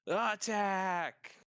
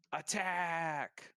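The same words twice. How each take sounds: First: Loud, high rallying cry; battle shout. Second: Higher, drawn-out call, held back in volume; a battle cry as heard a block away; distant shout. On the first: Glinda calling an attack on seeing prisoners fall, loud shout. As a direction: shout the charge at full voice. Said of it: "shouts out". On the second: Game master voicing a shout heard from afar, restrained shout. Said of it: "just shout". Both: Acted.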